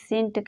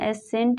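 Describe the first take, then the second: First: The word starts directly with an 's' sound. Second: The word starts with an extra 'eh' vowel. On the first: The speaker calls it right. "सेंट करते हैं" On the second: The speaker calls it wrong. "इसका उच्चारण एसेंट नहीं"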